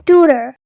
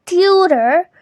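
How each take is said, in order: First: "tutor" as TOO-ter; plain oo in "tutor", no y glide; correct pronunciation. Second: "tutor" as TYOO-ter; wrong pronunciation. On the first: Teacher corrects it, "tutor" as TOO-ter. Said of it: "instead it is". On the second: Teacher showing what it isn't, "tutor" as tyootor. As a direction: add a y glide to "tutor": tyootor. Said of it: "So it's not really". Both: Shown as a demonstration.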